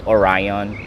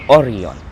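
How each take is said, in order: First: The name is said with an American pronunciation. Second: The name is said with an Italian pronunciation. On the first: The speaker calls it wrong. "the American says it is Orion" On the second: The speaker calls it right. "but it is Orion"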